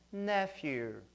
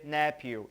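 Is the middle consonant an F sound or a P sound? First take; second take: F sound; P sound. First: The middle consonant is an F sound. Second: The middle consonant is a P sound. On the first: The speaker calls it right. "e sim som de F" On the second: The speaker calls it wrong. "P H em inglês não tem som de P. Não vai dizer nephew"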